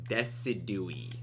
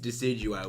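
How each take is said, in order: First: The name ends with an 'ee' sound. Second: The name ends with an 'eye' sound. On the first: The speaker calls it wrong. "Someone mispronounced Decidueye's name that badly" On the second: The speaker calls it right. "even though they know it's Decidueye"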